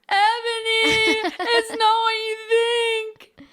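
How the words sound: It is acted as a sad scream.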